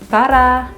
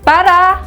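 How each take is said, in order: First: The word is said at normal volume. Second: The word is shouted loudly. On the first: The speaker calls it wrong. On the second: The speaker calls it right.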